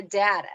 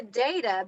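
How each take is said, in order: First: Data with the vowel of cat; short-a data. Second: Data with the vowel of day; long-a data. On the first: Showing co-host the other usage, data as DAT-uh. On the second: Showing co-host one usage, data as DAY-tuh. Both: Shown as a demonstration. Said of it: "It depends on how I".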